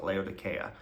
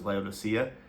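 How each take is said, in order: First: It uses the local pronunciation. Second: It uses the familiar English pronunciation. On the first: This is how people in the place itself say it. "here they pronounce it Laodicea" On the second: This is how listeners have usually heard it. "you may have heard it pronounced as Laodicea"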